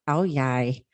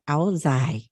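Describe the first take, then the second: First: The second syllable starts with a y sound. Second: The second syllable starts with a z sound. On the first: This is how the southern region says it. "in the southern region is pronounced as Ao Yai" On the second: This is how the northern region says it. "if you come from northern region, it actually is pronounced Ao Zai"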